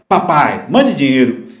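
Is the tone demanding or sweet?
demanding. It sounds rude and demanding.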